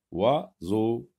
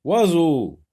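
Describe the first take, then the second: First: Oiseau broken into oi and seau, at normal level; syllable by syllable. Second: Oiseau high, loud and run together; loud model word. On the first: Teacher breaking the word down for pupils, Oiseau in two syllables. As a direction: split Oiseau before the z sound. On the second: Teacher presenting the word to sort, Oiseau loud and whole. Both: Shown as a demonstration. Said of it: "Barre le son que tu n'entends pas".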